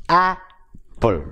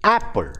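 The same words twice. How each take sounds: First: "apple" split as a, then ple, with a clear gap; syllable by syllable. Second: Said in the usual way. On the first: Shown as a demonstration. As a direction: break "apple" into two separate beats. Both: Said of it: "disyllabic words are".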